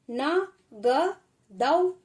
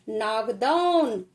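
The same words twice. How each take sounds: First: नागदौन stretched very slowly, ending on a rise; slow teacher demo; slow sounding-out. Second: Said in the usual way. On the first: Shown as a demonstration. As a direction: draw out each part of नागदौन. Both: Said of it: "teacher sounds out word".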